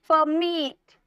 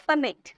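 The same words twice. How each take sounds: First: permit with मिट drawn out and stressed; stress on last syllable. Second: Said in the usual way. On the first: Shown as a demonstration. Teacher showing stressed pronunciation, weight on the end of permit. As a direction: lean firmly on मिट in permit. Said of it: "तो जोड़ दे रहे हैं आप". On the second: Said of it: "direct नहीं बोल रहा".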